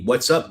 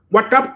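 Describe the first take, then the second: First: It is said in a plain, natural voice. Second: It is said in a put-on, imitated voice. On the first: The speaker calls it wrong. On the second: The speaker calls it right.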